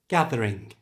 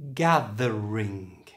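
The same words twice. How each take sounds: First: It is said at normal conversational speed. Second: It is said slowly with a strong th. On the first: "And now at normal speed" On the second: "First slowly"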